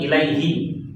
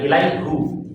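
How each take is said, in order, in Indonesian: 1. Suku kata terakhir memiliki vokal 'i'. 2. Suku kata terakhir memiliki vokal 'u'. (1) "Baligh salami ilaihi" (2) "bukan ilaihu"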